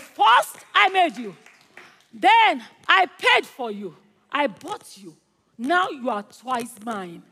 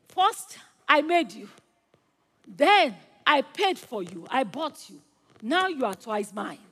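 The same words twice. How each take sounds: First: Emphatic proclamation. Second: Restrained emphasis, easing down at the end; mildly emphatic declaration. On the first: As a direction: proclaim it step by step with force. Same words repeated for emphasis. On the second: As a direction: tell it to the boat with measured joy. Boy tells his boat, first telling. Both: Acted.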